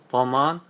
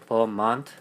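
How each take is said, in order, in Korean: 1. 이 단어는 t 소리 없이 끝납니다. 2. 이 단어는 들리는 t 소리로 끝납니다. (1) "원래 발음을 할 때는 버만 하거든요. 트가 안 들어가더라고요" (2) "버만은 버만트"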